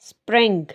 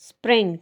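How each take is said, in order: Both takes have the same delivery.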